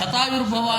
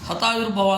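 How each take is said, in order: First: The word begins with an sh sound. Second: The word begins with an h sound. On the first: It wishes a life of a hundred years. The speaker calls it right. "ಶತಾಯುರ್ಭವ ಅನ್ನಲಿಕ್ಕೆ ಶಕಾರಕ್ಕೆಲ್ಲ ಹಕಾರ ಹೇಳ್ತಾರೆ" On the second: It sounds like wishing that one's life be lost. The speaker calls it wrong. "Kalinga ಮತ್ತೆ ಅಸ್ಸಾಮದವರು ಹಿಂಗೆ ಹೇಳೋದು ಅಂದರೆ ಹತಾಯು ಅಂತಾರೆ"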